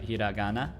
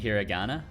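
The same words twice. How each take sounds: First: It is said with a Japanese-style pronunciation. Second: It is said with an English-style pronunciation.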